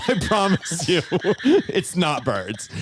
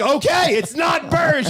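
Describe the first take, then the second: First: Amused, drawn-out mock reassurance; laughing reassurance. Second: High, loud retold outburst; exasperated shout. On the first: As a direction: promise through laughter, slowing at the end. Reassures her while laughing. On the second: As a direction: yell it, out of all patience. Exasperated retort to panicking woman.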